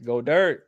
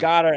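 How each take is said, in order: First: The name sounds like 'go dirt'. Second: The name sounds like 'goddard'. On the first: "I'm just always gonna go with Go Dirt because that's really what it is" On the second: "we know it's"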